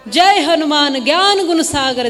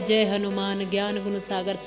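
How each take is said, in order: First: It is said loudly and forcefully. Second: It is said quietly and softly.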